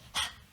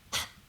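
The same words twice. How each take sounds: Both takes have the same delivery.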